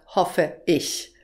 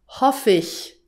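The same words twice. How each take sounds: First: The final e is kept and ich is separate. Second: The final e is dropped and linked to ich. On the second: "Auch das ist typisch"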